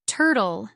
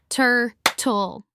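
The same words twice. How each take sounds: First: Said in the usual way. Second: "Turtle" as two separate beats, tur, pause, tle; split into syllables. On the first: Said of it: "say the syllables in the words". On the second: Shown as a demonstration. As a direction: break "Turtle" in two with a gap after the first syllable. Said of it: "Listen as I clap and say the syllables in the words".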